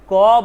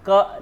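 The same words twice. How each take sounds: First: Full क with its vowel drawn out and louder; पूरा क. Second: Short, cut-off क; आधा क. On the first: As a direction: sound क as a whole, open syllable. (पूरे स्वर के साथ लंबा क) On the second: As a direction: say क briefly, without a held vowel. (बिना स्वर खींचे छोटा क) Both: Shown as a demonstration. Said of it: "क नहीं बोल रहे हैं".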